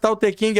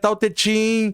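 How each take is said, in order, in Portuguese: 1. A última palavra começa com som de K. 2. A última palavra começa com som de CH. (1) "Não é Tao Te King" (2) "é Tao Te Ching"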